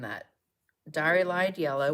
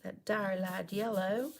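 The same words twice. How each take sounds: First: It is said in a plain, neutral accent. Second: It is said in a Southern American accent.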